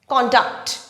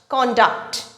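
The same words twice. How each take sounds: First: The stress is on the first syllable. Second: The same.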